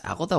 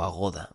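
First: Agoda accented on its opening syllable; stress on first A. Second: Agoda accented on its middle syllable; stress on GO. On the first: Podcaster asking which name is right, Agoda stressed on first A. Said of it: "si llevara acento en la A". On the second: Podcaster asking which name is right, Agoda stressed on GO. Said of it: "así que es Agoda". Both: Shown as a demonstration.

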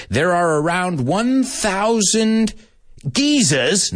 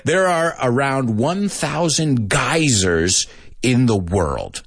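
First: Slow, high-pitched reading, "geysers" as GEE-zuhz; British pronunciation. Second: Slow reading, "geysers" as GUY-zerz; American pronunciation. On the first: Acted. Teacher reading a student's answer, British pronunciation. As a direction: read it out with British long-ee "geysers". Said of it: "not gonna say it British". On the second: Shown as a demonstration. Teacher rereading a student's answer, American pronunciation. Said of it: "I'm not gonna say it British".

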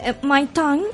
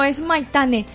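First: Maitán said with no final e, stress on -tán; mispronounced name. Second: Maitane with the final e clearly pronounced; correct name. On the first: (Maitán, sin la e final y con acento en -tán) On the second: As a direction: give the full name Maitane, ending in e. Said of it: "¿se pronuncia la E?". (Maitane, pronunciando bien la e final) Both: Retold or imitated.

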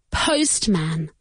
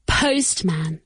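Both takes have the same delivery.

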